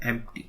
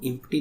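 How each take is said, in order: First: एम्प्टी said with an open e at the start, like empty; correct pronunciation. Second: एम्प्टी said with a short i sound at the start, like impty; wrong pronunciation. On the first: Teacher showing students the right way to say एम्प्टी, empty. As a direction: sound एम्प्टी as empty, with a clear e. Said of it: "एम्प्टी पढ़ते हैं". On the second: Teacher showing students the wrong way to say एम्प्टी, impty. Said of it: "इसको एम्प्टी नहीं पढ़ते हैं". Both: Shown as a demonstration.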